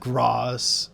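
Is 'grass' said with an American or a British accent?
British. The vowel is long, as in 'father'. This is the speaker's original way of saying it. "instead of grass"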